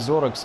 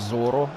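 First: The name ends with a 'ks' sound. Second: The name ends with an 'o' vowel. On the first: The speaker calls it wrong. "не Зорекс" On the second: The speaker calls it right. "а Зоро"

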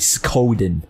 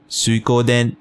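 First: The name has an American English pronunciation. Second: The name has a Japanese pronunciation. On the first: "the proper American English way" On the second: "the proper way"

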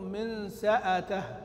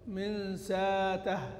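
First: A glottal stop follows 's' with a short 'a' after it. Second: No glottal stop; a long 'a' vowel follows 's'. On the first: "بهمزة مفتوحة" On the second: "قرأ بالإبدال"

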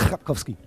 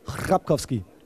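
First: The vowels in the name are kept short. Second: A vowel in the name is drawn out long. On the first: The speaker calls it right. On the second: The speaker calls it wrong.

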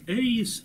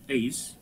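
First: The diphthong is drawn out and long. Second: The diphthong is said short and quick. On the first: The speaker calls it wrong. "Не эйс" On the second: The speaker calls it right. "поэтому и кратко произносится"

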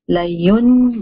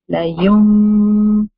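First: The syllable ends with an n sound. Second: The syllable ends with a nasalized m sound. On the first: The speaker calls it wrong. "instead of saying la yun bazanna" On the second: The speaker calls it right. "I'm saying la yum, and I'm doing gunna"

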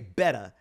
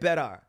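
First: The word ends in an open 'ah' sound. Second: The word ends in a slight 'r' sound. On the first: "She didn't even put an A. Like, she didn't say better" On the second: "she put a slight AR"

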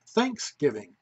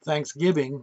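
First: The stress is on the first syllable. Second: The stress is on the second syllable. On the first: The speaker calls it right. "with the emphasis on the first syllable" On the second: The speaker calls it wrong. "the pronunciation isn't Thanksgiving"

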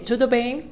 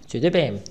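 First: The voice rises at the end like a question. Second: The voice falls at the end like a statement. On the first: It asks how someone is. "il y a l'intonation. Lorsqu'on pose la question" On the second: It answers that one is fine. "Pour répondre"

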